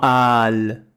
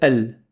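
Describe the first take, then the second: First: The vowel is a clear open a. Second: The vowel sits between e and a. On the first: The speaker calls it wrong. "ce sera pas vraiment Al" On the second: The speaker calls it right. "c'est plutôt E. L, entre le E et le A"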